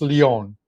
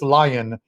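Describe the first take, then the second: First: The name is pronounced the French way. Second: The name is pronounced the English way. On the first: This is how it is said in France. "if we were in France and we're talking soccer, it's Lyon" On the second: This is how it is said in America. "he is in America, so it's Lion here"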